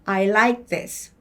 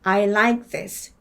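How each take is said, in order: No difference in how they are said.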